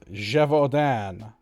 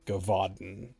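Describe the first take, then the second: First: The name is said with French-style sounds. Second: The name is said with anglicized English sounds. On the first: The speaker calls it right. "it's pronounced something like that. Apparently it's a French thing" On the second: The speaker calls it wrong. "which is how I used to pronounce it before"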